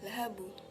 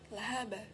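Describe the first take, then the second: First: The final b bounces toward a u vowel. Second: The final b bounces toward an a vowel. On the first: "atau lahabu" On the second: "Tidak boleh kita mengucapkan lahaba"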